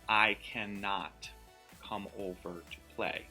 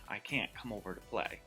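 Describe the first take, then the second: First: The word cannot is said in full. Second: The word is contracted to can't. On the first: It sounds formal, like written text. The speaker calls it wrong. "It just sounds very formal" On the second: It sounds comfortable, like everyday talk. The speaker calls it right. "sounds like more comfortable"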